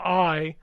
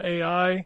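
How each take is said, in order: First: The name is said as one syllable. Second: The name is spelled out as two letters. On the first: The speaker calls it right. "I know how to pronounce it now" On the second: The speaker calls it wrong. "or sorry"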